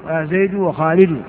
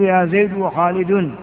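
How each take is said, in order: First: وخالد ending in short "-u", no n; without tanween. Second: وخالد ending in a voiced "-un"; with tanween. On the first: Teacher correcting the vocative example, وخالد without tanween. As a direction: pronounce وخالد as "khalidu". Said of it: "بغير تنوين لأنه مبني على الضم". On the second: Teacher giving a vocative example, وخالد with tanween. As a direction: pronounce وخالد as "khalidun". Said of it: "بغير تنوين". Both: Shown as a demonstration.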